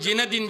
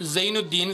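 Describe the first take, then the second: First: The name is said in its French form, Zinedine. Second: The name is said in its Arabic form, Zainuddin. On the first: This is how everyone commonly says the name. The speaker calls it wrong. "ഞമ്മ എല്ലാവരും ചെന്നത് ജിനദിൻ ജിദാൻ എന്നാണ്" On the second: This is the name's true original form. The speaker calls it right. "സത്യത്തിൽ അവന്റെ പേര് നല്ല പേര് സൈനുദ്ദീൻ"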